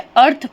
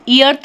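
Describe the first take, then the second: First: It starts directly with the 'er' vowel. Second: An 'ee' sound is heard before 'arth'. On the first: The speaker calls it right. "उसे अर्थ पढ़ते हैं" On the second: The speaker calls it wrong. "हम ईअर्थ नहीं पढ़ते हैं"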